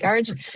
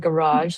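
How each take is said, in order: First: Garage is pronounced with an Irish accent. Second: Garage is pronounced with an American accent. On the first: "I'm Irish, by the way, so I would say garage" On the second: "as the Americans would say"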